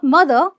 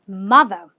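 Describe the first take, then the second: First: The first vowel is not an 'ah' sound. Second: The first vowel is an 'ah' sound. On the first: The speaker calls it wrong. "not mother" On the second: The speaker calls it right. "ma and ah, mother"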